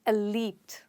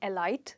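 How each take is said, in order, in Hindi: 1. दूसरे अक्षर में 'ee' स्वर है। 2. दूसरे अक्षर में 'eye' स्वर है। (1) "पर इसकी प्रोनाउंसिएशन है एलीट" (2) "देखने से तो ये वर्ड ऐसे साउंड होता है जैसे एलाइट"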